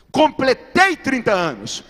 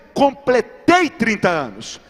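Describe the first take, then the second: No difference in how they are said.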